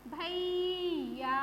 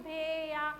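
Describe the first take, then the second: First: भैया stretched slowly as bha-eee-ya; slow भैया with a long, stressed bhai; correct ai vowel. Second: भैया said as bhe-ya with a plain e; mispronounced भैया, bhe-ya without the glide; wrong vowel demo. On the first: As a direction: hold the ai glide in भैया very long. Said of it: "तो हमें क्या बोलना है?". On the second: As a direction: swap the ai in भैया for an e. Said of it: "वो आपका गलत हो जाएगा". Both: Shown as a demonstration.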